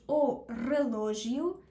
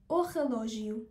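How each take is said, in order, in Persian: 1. اولین صدای relógio یک r است. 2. اولین صدای relógio یک kh گلویی است. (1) "میتونیم بخونیمش او رلوژیو، اما زیاد اینجوری نمیشنویم" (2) "معمولا با صدای خ میشنویم"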